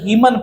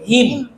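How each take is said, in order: First: The final n sound is pronounced. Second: The final n sound is silent. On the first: The speaker calls it wrong. "जो कि गलत पढ़ रहे हैं" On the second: The speaker calls it right. "एन को हटा करके पढ़ेंगे"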